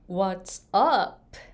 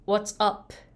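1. "up"の母音は長く伸ばす。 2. "up"の母音は短く言う。

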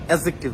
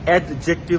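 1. শব্দাংশগুলো একসঙ্গে মিলে একটি মসৃণ শব্দ হয়ে যায়। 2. শব্দাংশগুলো আলাদা করে টেনে উচ্চারণ করা হয়। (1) "অ্যাডজেক্টিভ বলবো" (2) "এটাকে আমরা অ্যাডজেক্টিভ বলবো না ... এরকম আলাদা করে উচ্চারণ হবে না"

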